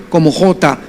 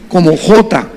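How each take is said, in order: No difference in how they are said.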